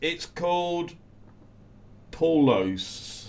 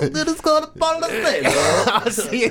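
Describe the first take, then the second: First: It is said in a plain, ordinary accent. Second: It is said in a funny foreign accent.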